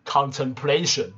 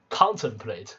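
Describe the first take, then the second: First: Contemplation with PLA stressed; stress on third syllable. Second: Slow contemplate with CON stressed; stress on first syllable. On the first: Teacher showing how the noun is read, third-syllable stress in contemplation. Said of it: "名词要读的是". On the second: Teacher showing how the verb is read, slow first-syllable stress in contemplate. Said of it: "如果是动词". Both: Shown as a demonstration.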